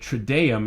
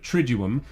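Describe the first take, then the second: First: The second vowel sounds like 'ee'. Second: The second vowel sounds like 'oo'. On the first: The speaker calls it wrong. "I said trideum instead of triduum" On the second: The speaker calls it right. "instead of triduum"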